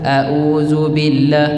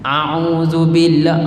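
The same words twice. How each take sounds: First: Both opening sounds are plain glottal stops. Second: Both opening sounds are tight throat ain sounds. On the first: "itu sama hamzah hamzah" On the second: "dia pergi dua-dua hentam ain"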